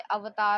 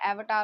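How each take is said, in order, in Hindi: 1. यह नाम हिंदी उच्चारण में बोला गया है। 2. यह नाम अंग्रेज़ी उच्चारण में बोला गया है।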